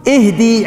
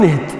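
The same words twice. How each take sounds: First: اهدي with a held "ee" at the end; long final yaa. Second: اهد ending without the long yaa; short final vowel. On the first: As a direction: say "ih-dee", sounding the yaa in اهدي. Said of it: "المفروض تقولون". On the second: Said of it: "المفروض ما تقولون اهد". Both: Shown as a demonstration.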